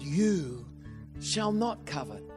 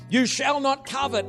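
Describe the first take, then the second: First: It sounds like a gentle promise. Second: It sounds like a stern command.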